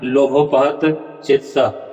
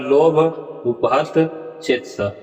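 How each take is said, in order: First: The first two words are merged into one. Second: The first two words are said separately. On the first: The speaker calls it wrong. "ऐसा उच्चारण नहीं होगा" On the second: The speaker calls it right. "उच्चारण होगा"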